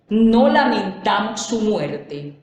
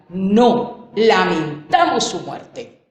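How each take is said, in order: First: It is said straight through without a pause. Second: There is a pause after the first word.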